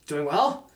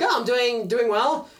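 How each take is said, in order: First: Lower, tentative answer hiding nerves; guarded reply. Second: Higher, easy, composed reply; calm, firm. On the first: Anxious man answering the shoe owner, guarded. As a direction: answer carefully, trying to sound normal. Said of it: "but internally, you're just like". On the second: Shoe owner answering the anxious man, calm and firm. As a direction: imitate his unruffled, pleasant answer. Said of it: "in this very calm and firm voice". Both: Retold or imitated.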